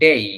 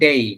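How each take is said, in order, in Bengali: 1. স্বরধ্বনিটি 'e' থেকে 'i'-তে glide করে। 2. স্বরধ্বনিটি 'e' থেকে 'i'-তে গ্লাইড করে।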